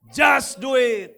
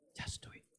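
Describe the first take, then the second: First: It is said aloud and louder. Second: It is whispered.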